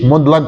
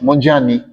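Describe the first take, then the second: First: The name is said just as it is spelled. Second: The name is said the local way, not as spelled. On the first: This is how outsiders say it, following the spelling. The speaker calls it wrong. "a gente diz Mondlane tal como escrevem" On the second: This is how speakers of the name's own language say it. The speaker calls it right. "pronunciamos Mondiani"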